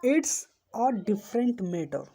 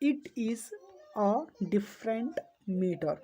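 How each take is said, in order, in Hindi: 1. यह एक ही सिलेबल में सिकुड़ जाता है। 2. यह दो अलग-अलग शब्दों की तरह बोला जाता है। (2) "इसका फुल फॉर्म इट्स का होता है इट इज"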